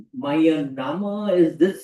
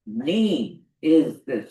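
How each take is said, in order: First: "My name is this" drawn out slowly, rising on "is"; wrong stress. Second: "name is this" very slow, falling on "is"; stress corrected. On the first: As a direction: say "My name is this" slow, lifting on "is". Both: Retold or imitated. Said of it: "you put stress on my".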